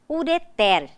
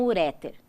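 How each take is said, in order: First: The stress is on the last syllable. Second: The stress falls before the last syllable. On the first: The speaker calls it right. "São oxítonas" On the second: The speaker calls it wrong. "e não uréter"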